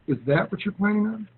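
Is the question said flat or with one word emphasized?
emphasized. The word 'that' carries strong emphasis. It creates an emotion and draws a response. The speaker calls it right. "when I emphasize the word that"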